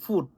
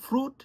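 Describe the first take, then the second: First: No r sound follows the f. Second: An r sound follows the f. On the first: "সে বলতেছে ফুট" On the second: "বলো তো ফ্রুট"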